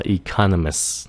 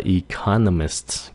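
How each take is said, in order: First: Economist ending on just s, economis; dropped final T. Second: Economist ending in a clear st; full final T. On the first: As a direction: leave the T off "economist". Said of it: "chỉ cần nói là economist". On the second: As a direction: finish "economist" on an audible T. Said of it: "không cần nói là economist". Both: Shown as a demonstration.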